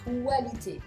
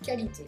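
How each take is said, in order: First: The word begins with a 'kw' sound. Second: The word begins with a plain 'k' sound. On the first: The speaker calls it wrong. "est-ce qu'on dit qualité? Non" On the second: The speaker calls it right. "Comme si c'était un K A"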